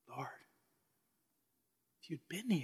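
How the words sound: The voice sounds sorrowful and humble. The speaker grieves the loss without blame. "Was it the sorrowful, humble Martha?"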